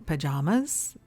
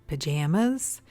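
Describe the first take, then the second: No difference in how they are said.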